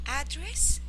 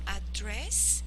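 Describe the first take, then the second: First: The stress is on the first syllable. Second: The stress is on the second syllable. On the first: It is a noun. "the intonation is on the A" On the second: It is a verb. "it is a verb"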